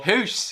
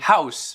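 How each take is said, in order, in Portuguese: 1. A palavra é dita com pronúncia irlandesa. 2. A palavra é dita com pronúncia padrão. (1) "ele falou house" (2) "em vez de house"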